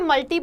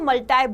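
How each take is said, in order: First: The word ends with an 'ee' sound. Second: The word ends with an 'eye' sound. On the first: "अगर हम British pronunciation को देखें तो ये मल्टी बोला जाता है" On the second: "अगर हम अमेरिकन प्रोनाउंसिएशन को देखें तो मल्टाई बोला जाता है"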